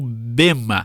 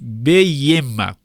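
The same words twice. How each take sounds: First: The first vowel is a plain e sound. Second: The first vowel is an ei diphthong.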